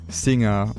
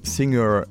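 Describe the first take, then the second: First: The final R sound is dropped. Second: The final R sound is clearly pronounced. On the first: "instead of just like dropping the R at the end, the way that most British accents do it" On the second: "you would pronounce the end singer"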